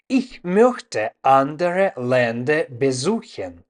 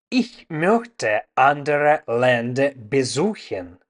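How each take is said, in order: Both takes have the same delivery.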